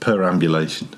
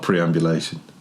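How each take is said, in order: First: The word begins with the sounds 'per'. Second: The word begins with the sounds 'pre'. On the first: The speaker calls it right. "I think I should have said perambulation" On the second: The speaker calls it wrong. "not preambulation"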